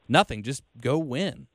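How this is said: It is said in a casual, offhand way. Nothing needs to change; just go win. The speaker calls it right. "like the intonation was supposed to be like"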